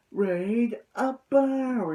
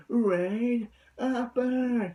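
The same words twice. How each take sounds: First: Very slow, higher, stretched move name; mock anime move shout; drawn-out battle call. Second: Very slow, higher drawn-out move call; drawn-out mock anime attack call; imitating Hyuga. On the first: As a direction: draw out the attack call. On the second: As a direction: stretch the call like the character. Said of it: "he sounds like Hyuga".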